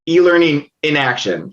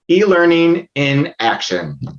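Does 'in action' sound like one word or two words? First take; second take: one word; two words. First: 'In' and 'action' run together as one word, 'inaction'. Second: 'In' and 'action' are heard as two separate words. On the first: Nothing is happening at all. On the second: Learning is being put into practice.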